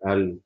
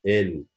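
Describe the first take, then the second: First: ال with an "a" vowel, "al"; mistaken letter name. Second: ال with an "eh" vowel, "ell"; French letter name. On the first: Teacher showing learners what to avoid, mistaken "al". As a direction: say ال wrongly as "al". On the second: Teacher correcting learners' L, clear French "ell". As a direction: say ال cleanly as "ell". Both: Shown as a demonstration. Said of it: "مش ال".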